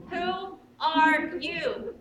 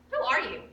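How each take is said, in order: First: "Who are you?" stretched very slowly; slow, drawn-out question. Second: Said in the usual way. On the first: Retold or imitated. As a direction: linger on each word of "Who are you?". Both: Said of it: "you think to yourself".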